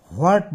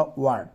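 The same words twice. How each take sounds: First: হোয়াট with a drawn-in "ho" before the "wa"; wrong pronunciation. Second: হোয়াট as a short "wat", no "ho"; correct pronunciation. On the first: Teacher showing students what not to say, wrong pronunciation of হোয়াট as "ho-at". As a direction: say হোয়াট as "ho-art", heavy and loud at the start. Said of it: "বলিও না তো". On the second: Teacher giving students the form to use, correct pronunciation of হোয়াট as "wat". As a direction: say হোয়াট starting straight on the w. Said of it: "বলিও না, বলবা". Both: Shown as a demonstration.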